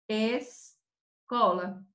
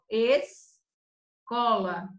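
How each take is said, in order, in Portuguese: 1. O S antes do C é claramente pronunciado. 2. O S antes do C é claramente pronunciado.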